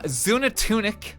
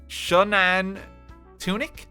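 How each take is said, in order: First: The name starts without an 'sh' sound. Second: The name starts with an 'sh' sound. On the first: The speaker calls it wrong. "I apologize in advance" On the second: The speaker calls it right. "X is pronounced as S H in Mayan"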